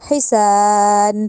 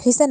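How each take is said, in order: First: The second vowel is long. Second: The second vowel is short. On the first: The speaker calls it right. "सीन को लंबा क्यों किया? अलिफ मद्दा की वजह से।" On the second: The speaker calls it wrong. "हिसन नहीं कहा"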